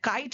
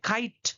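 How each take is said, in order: First: The k sound is plain, without a puff of air. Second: The k sound has a strong puff of air. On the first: This is how we usually say it. "काइट हम लोग बोलते हैं" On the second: This is how they say it. "टी ठा होगा और के खा होगा"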